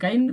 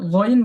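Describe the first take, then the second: First: The first vowel is an open a sound. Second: The first vowel is a rounded o sound. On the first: The speaker calls it wrong. "এটা গাইন উচ্চারণ না করে" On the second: The speaker calls it right. "বলার সময় গইন বলবেন"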